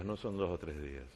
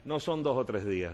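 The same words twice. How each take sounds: First: Repeated much lower and softer; a quiet aside to the crowd; soft echo. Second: Said in the usual way. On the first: Shown as a demonstration. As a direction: let it drop to a murmur.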